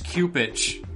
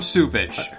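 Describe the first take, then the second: First: The name begins with a hard K sound. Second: The name begins with a soft S sound. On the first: The speaker calls it right. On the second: The speaker calls it wrong.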